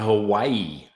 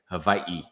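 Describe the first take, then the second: First: The middle consonant is a W sound. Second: The middle consonant is a V sound.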